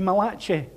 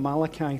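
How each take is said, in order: First: The name is pronounced the Italian way. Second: The name is pronounced the usual English way. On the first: "if you're here and you're Italian, that would be Malachi" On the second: "we're calling him Malachi today"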